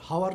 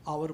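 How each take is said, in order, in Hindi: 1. इस शब्द की शुरुआत में एक सुनाई देने वाली h ध्वनि है। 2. यह शब्द स्वर से शुरू होता है, इसमें h नहीं है। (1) "हावर नहीं बोलते हम लोग" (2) "आवर बोलते हैं"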